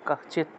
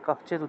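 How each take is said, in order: First: The consonant cluster is broken into separate sounds. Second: The consonant cluster is said together, unbroken. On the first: The speaker calls it wrong. "জয়টাকে ভাঙলে কশ্চিৎ পাওয়া যায়, তবে কশ্চিৎ উচ্চারণ করার দরকার নেই" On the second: The speaker calls it right. "কশ্চিৎই উচ্চারণ করবেন। এটাকে ভাঙ না ভেঙে উচ্চারণ করবেন।"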